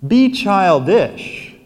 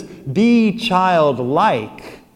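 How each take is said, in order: First: Put-on "childish" stretched slow and louder as the wrong reading; mock the wrong version, "Be childish"; wrong word stressed. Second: Put-on "childlike" drawn out very slowly and firmly; right word stressed. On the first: Priest to congregation, contrasting the wrong word, slow and stressed. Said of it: "He's not saying". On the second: Priest to congregation, correcting to the right word, very slow emphasis. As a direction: land "Be childlike" slowly as the true answer. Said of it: "He says". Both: Shown as a demonstration.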